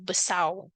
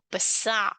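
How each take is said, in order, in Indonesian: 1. R di akhir menjadi vokal u. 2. R di akhir menjadi bunyi tenggorokan. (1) "R tu jadi U" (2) "R tu jadi Ain"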